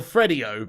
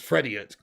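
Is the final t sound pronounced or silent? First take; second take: silent; pronounced. First: The word ends without a final t sound. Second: The word ends with a t, rhyming with idiot.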